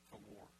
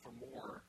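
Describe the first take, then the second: First: Much softer, lower echo; soft, low afterthought; hushed repeat. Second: Said in the usual way. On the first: Real, not acted. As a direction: drop it down quietly for emphasis. Repeats phrase, dropped much softer.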